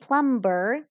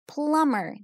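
First: The B sound is pronounced in the middle. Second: The B sound is silent in the middle. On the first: The speaker calls it wrong. "I don't say plumber?" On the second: The speaker calls it right. "So the B is silent"

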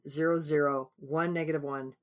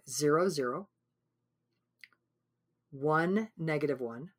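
First: It is said very fast. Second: It is said at a normal pace.

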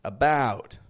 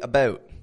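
First: The vowel in the word is drawn out long. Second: The vowel in the word is short and quick. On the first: It is careful speech for a class. "I stretch it all out" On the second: It is relaxed everyday family speech. "When I'm talking with my family, I'll typically say about"

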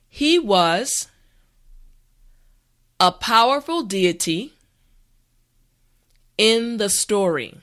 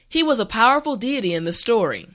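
First: The sentence is spoken slowly and carefully. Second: The sentence is spoken at a natural speed. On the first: "this time repeat after me" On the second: "this time we will go at a more natural pace"

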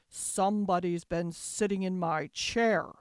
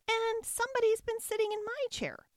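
First: It is said in a deep, gruff voice. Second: It is said in a high, squeaky voice.

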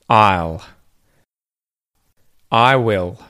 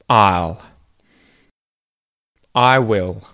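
No difference in how they are said.

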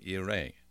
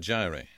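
First: The word begins with a Y sound. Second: The word begins with a J sound. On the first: This is how it sounds in the original language. The speaker calls it right. "Just let me pronounce it in Hebrew" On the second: This is the usual English rendering. The speaker calls it wrong. "English people tend to say Jehovah Jireh"

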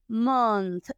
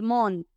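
First: The word ends with a clear TH sound. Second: The word ends without any TH sound. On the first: The speaker calls it right. "nos tenemos que asegurar que pronunciamos esta TH" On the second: The speaker calls it wrong. "No podemos decir mon y comernos la TH"

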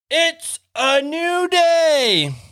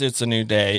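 First: It is said loudly and full of excitement. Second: It is said in a flat, plain way.

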